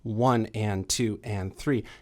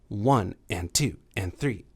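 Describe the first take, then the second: First: The beats are split into equal halves. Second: The beats are split long then short. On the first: "So it's not evenly divided. That would be" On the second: "It's sort of long, short, long, short, long"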